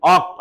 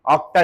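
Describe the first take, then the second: First: ऑक्ट said short, ending on the क्ट with no vowel after; correct form. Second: ऑक्टा said with a final आ, the wrong way; wrong form. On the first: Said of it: "ऑक्ट लगता है". (सही रूप: ऑक्ट, बिना आ के, ट पर खत्म) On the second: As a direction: say ऑक्टा, ending on a clear आ. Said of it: "ऑक्टा नहीं". (गलत रूप: ऑक्टा, अंत में आ के साथ) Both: Shown as a demonstration.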